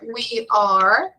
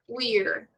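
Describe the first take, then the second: First: Both words are said fully and separately. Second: The words are squeezed into one short syllable.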